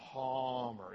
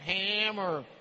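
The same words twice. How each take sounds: First: The first vowel is an open 'ah' sound. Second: The first vowel is like the one in 'cat'. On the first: This is the German way the family says it. The speaker calls it right. "open wide, and say, ah, Hammer" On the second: This is the usual American way. The speaker calls it wrong. "the American Hammer"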